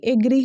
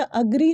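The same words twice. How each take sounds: First: एग्री with an "ay" start; wrong pronunciation. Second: अग्री with a short "uh" start; correct pronunciation. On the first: Teacher saying what to avoid, wrong pronunciation. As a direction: say एग्री as AY-gree. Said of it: "ना कि". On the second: Teacher applying the same rule, correct pronunciation. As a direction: say अग्री as uh-GREE. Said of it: "होगा". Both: Shown as a demonstration.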